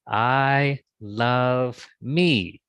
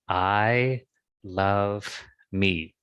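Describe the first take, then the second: First: It is said as loudly as possible. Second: It is said aloud at moderate volume.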